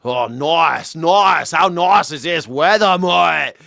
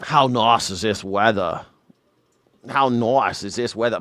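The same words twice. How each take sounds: First: Hammed-up, drawn-out Aussie accent; thick Australian accent. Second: Put-on moderate Aussie accent, lower pitch; Australian accent. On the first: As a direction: turn the Australian accent way up for passengers. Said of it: "he turns it way up". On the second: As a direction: imitate an Australian friend's everyday accent. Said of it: "he turns up his accent when he drives".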